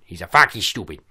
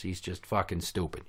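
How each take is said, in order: First: Loud, put-on mangled diction; goofy impression with clipped-off word endings; mock dimwit voice. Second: Said in the usual way. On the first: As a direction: squash the words in a silly put-on voice. Put-on voice repeating his own insult.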